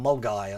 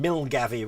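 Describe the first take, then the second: First: The name ends with a 'guy' sound. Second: The name is said with a 'gav' syllable. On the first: The speaker calls it right. "rather than Mulgai" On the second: The speaker calls it wrong. "Milgavy rather than"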